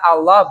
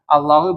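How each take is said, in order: First: The word ends with a short 'a' vowel. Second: The word ends with a short 'u' vowel. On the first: The word is the excepted item, in the accusative case. "Kalau Allah ini sebagai mustasna ya" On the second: The word is a substitute, in the nominative case. "Kalau marfu' sebagai badal"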